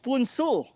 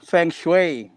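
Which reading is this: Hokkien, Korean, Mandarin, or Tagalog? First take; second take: Korean; Mandarin. First: It begins with p and sounds like 'poon-soo'. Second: It begins with f and sounds like 'fung shway'. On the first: "Korea, it's" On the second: "in Mandarin, it's"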